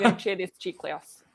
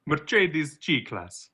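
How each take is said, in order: First: Mercedes G-Class said slowly and softer, echoing the sounds; quiet, slow echo of Mercedes G-Class; repeated brand name. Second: Mercedes said slowly and higher as Mer-CHAY-dez, G-Class as CHEE-class; slow, lifted, foreign-sounding Mercedes G-Class; showy brand name. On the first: Repeating the car name back to the cohost, slow and soft. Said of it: "repeats the brand name back". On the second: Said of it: "a brand name said for show". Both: Shown as a demonstration.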